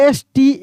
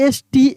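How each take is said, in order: No difference in how they are said.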